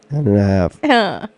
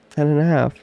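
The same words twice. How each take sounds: First: It is said loudly. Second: It is said at normal volume.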